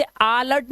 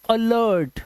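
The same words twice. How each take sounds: First: अलर्ट starting on a long "aa"; mispronounced ALERT. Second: अलर्ट starting on a short "uh"; correct ALERT. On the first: Teacher warning against reading it like after, अलर्ट with long "aa". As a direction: say अलर्ट as "aa-lart". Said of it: "नहीं पढ़ते". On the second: Teacher giving the right reading, अलर्ट with short "uh". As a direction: say अलर्ट as "uh-lert". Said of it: "इसे पढ़ते हैं". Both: Shown as a demonstration.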